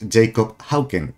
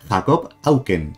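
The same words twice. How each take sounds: First: The name is said the English way. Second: The name is said the Spanish way, silent h. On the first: "O lo leo en inglés" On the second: "en español la H es muda. Tendría que decir"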